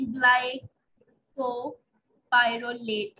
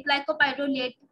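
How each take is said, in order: First: Glycopyrrolate stretched out very slowly, each syllable held; very slow repeat. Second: Glycopyrrolate drawn out slowly, syllable by syllable; slow spelled-out drug name. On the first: Teacher repeating the name for students, very drawn out. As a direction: drag out glycopyrrolate for students to memorise. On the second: Teacher to pharmacology class, slowly sounding out glycopyrrolate. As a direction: say glycopyrrolate slowly so students catch each syllable. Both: Shown as a demonstration. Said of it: "ये आप कर सकते हैं".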